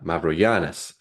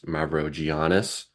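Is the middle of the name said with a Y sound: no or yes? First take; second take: Yes; No. First: The middle consonant is a Y sound. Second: The middle consonant is not a Y sound. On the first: This is how Greek people say it. "they pronounce it as a Y" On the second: This is how Americans say it. "the American way is Mavrogiannis"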